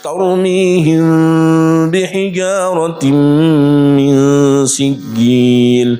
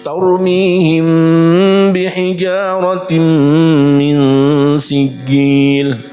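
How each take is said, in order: First: The lips stay slightly open on the m sound. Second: The lips close fully on the m sound. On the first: "ghairu tam" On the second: "intibak tam"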